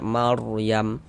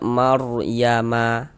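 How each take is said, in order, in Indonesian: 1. Kata ini berakhir dengan huruf m yang tidak dibaca. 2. Kata ini berakhir dengan vokal tambahan di akhir. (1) "kita baca Maryam" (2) "Jangan dibaca Maryama baru berhenti"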